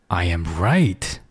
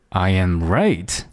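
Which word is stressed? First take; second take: right; right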